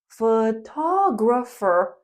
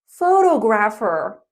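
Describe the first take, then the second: First: The stress is on the second syllable. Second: The stress is on the first syllable. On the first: The speaker calls it right. "We say photographer" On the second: The speaker calls it wrong. "not photographer"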